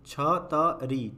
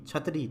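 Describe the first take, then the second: First: छतरी split slowly as छ… त… री; syllable by syllable. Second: Said in the usual way. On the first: Shown as a demonstration. Teacher reads the word for learners, broken up. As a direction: sound out छतरी in pieces. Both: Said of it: "पहले पढ़ लेते हैं".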